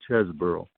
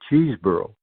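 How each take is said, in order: First: The first syllable sounds like 'Ches'. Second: The first syllable sounds like 'Cheese'. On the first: This is the older way the name was said. The speaker calls it right. "As a kid, he was always called Chesborough" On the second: This is the newer way the name is said. The speaker calls it wrong. "that has been changed by Sabre to Cheeseborough"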